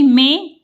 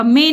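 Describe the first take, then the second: First: "में" as mẽ, through the nose; corrected "में" with a nasal e; nasalised vowel. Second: "में" as oral me; the wrong "में", vowel not nasalised; without nasal. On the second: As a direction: say "में" with a plain e. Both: Shown as a demonstration. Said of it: "में नहीं".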